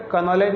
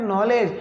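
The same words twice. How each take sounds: First: का नॉलेज run together as "ka-nowledge"; नॉलेज with the silent K voiced; wrongly voiced K. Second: Said in the usual way. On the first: Shown as a demonstration. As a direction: sound a "ka" before नॉलेज. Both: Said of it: "अबे का नॉलेज नहीं मेरे भाई".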